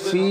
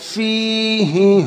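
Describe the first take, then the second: First: The word stops short without its final vowel. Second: The word keeps its final vowel and runs on. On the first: The reader pauses at this word. "থামলে হবে ফি" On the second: The reader continues without pausing. "না থামলে হবে ফিহি"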